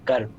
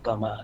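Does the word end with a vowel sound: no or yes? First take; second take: no; yes. First: The word ends without a final vowel sound. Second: The word ends with a final vowel sound. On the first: The speaker calls it right. "So you omit the a" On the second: The speaker calls it wrong. "it's not pronounced as karma"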